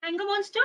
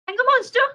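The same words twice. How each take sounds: First: Said in the usual way. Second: Higher, louder call out. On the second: Acted. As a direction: call out to find the monster. Calling louder for monster.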